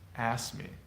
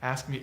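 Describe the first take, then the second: First: The K sound is dropped between the consonants. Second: The K sound is clearly pronounced between the consonants. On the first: "You just don't hear it" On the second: "It's just not uh"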